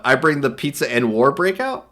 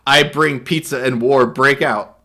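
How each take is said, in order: First: "breakout" rising at the end as a question; read as a question. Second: Said in the usual way. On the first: Shown as a demonstration. Reading an odd caption aloud, ending on a puzzled rise. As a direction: turn "I bring the pizza and war breakout?" into a puzzled question. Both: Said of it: "Question mark?".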